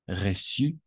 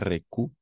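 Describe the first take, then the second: First: The middle consonant is pronounced as an S. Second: The middle consonant is pronounced as a K. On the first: The speaker calls it right. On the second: The speaker calls it wrong.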